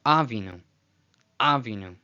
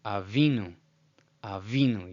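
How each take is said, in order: First: Avinu as AH-vee-noo; wrong first-syllable stress. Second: Avinu as ah-VEE-noo; correct middle stress. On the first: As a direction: punch the opening A of avinu hard. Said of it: "or it's not". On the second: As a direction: lean on the VI of avinu. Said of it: "helps us know where the emphasis is". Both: Shown as a demonstration.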